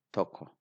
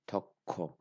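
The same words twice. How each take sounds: First: Toko with a single, quick k; soft sound. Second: Toko with a long stop on a doubled k; strong sound. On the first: Teacher showing learners the mistaken form, soft single k. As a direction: run through toko without holding the k. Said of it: "It is not toko". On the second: Teacher correcting for learners, strong doubled k. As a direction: stay on the k in toko before releasing it. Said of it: "So I stay". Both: Shown as a demonstration.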